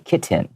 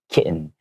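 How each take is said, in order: First: The middle T is clearly pronounced. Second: The middle T is silent, not released. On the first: "you can say kitten. That's fine too" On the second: "we might change it to a silent T"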